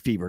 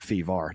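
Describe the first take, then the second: First: The word is said in a plain accent. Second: The word is said in a Boston accent. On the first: The speaker calls it right. "That should be fever" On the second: The speaker calls it wrong. "That's like a, uh, a Boston accent right there"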